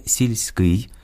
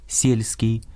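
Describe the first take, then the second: First: «сільський» stressed on the final syllable, сільськИй; Ukrainian stress. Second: «сільський» as Russian сЕльский, stressed on the first syllable. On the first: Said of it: "Українське". («сільський» — наголос на «кий») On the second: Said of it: "російське". («сільський» — російською, наголос на першому складі) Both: Shown as a demonstration.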